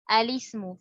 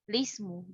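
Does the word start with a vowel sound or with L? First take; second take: vowel; L. First: The word begins with a short 'a' vowel. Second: The word begins directly with the 'l' sound. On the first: "hamzah wasol dibaca dengan fathah yang diikuti kasroh pada lam" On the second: "dapat dimulai membaca tanpa melafazkan hamzah wasal"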